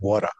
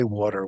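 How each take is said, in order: First: It is said in a Rhode Island accent. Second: It is said in a general American accent. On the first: "my Rhode Island accent" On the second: "we don't say water"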